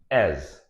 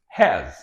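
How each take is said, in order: First: The word begins without an h sound. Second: The word begins with an h sound.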